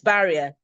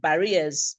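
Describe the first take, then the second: First: The stress is on the first syllable. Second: The stress is not on the first syllable. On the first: The speaker calls it right. "Initial stress placement" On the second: The speaker calls it wrong. "I hear a lot of"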